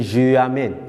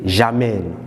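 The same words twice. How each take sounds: First: Je amène with je and amène kept apart; wrong unelided je amène. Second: J'amène said slowly as one word, zha-mène; elided j'amène. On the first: Teacher contrasting the wrong form, je amène said separately. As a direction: say je amène as two words, no elision. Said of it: "We don't say je amène". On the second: Teacher showing the right form, j'amène slowly run together. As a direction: glide je into amène as j'amène. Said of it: "We say j'amène". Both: Shown as a demonstration.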